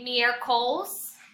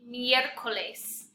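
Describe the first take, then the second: First: The E vowel is weak or barely heard. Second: The E vowel is clearly pronounced. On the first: The speaker calls it wrong. "a lot of you are saying maybe miércoles" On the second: The speaker calls it right. "you want to make sure you pronounce that E"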